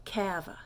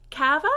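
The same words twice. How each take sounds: First: Soft falling kava; statement ça va. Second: Kava with a rising question tune. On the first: Teacher contrasting statement with question. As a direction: say kava softly, dropping. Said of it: "but remember". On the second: Teacher modelling the French question. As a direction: ask kava with a lift at the end. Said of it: "So that is". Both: Shown as a demonstration.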